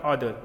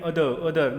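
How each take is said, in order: First: Other with an altered, heavier first vowel; wrong pronunciation. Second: Other with its usual short first vowel; correct pronunciation. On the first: Teacher showing what to avoid, other with heavy first vowel. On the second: Teacher modelling the word for students, other with short first vowel. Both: Shown as a demonstration. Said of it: "not other".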